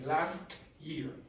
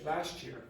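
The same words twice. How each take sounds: First: Each sound is said carefully and separately. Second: The sounds are linked together and reduced. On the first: The speaker calls it wrong. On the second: The speaker calls it right.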